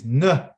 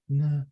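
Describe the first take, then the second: First: It is said forcefully from the stomach. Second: It is said softly and weakly.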